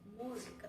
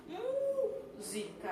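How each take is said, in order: First: Said in the usual way. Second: "Música" called high, with a very long "mú"; stressed syllable MÚ held. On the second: Shown as a demonstration. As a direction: slowly sing out the "mú" of "Música", then finish "sica". ("Música" chamado em tom agudo, prolongando o "mú") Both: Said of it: "Vamos classificar a sílaba tônica".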